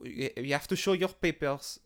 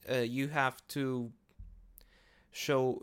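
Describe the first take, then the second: First: Put-on a botched German accent that slides into French; half-hearted German accent that comes out French; terrible German accent. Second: Said in the usual way. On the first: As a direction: bark it like a bad movie German guard, but the accent drifts French. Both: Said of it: "that was a fucking terrible German accent".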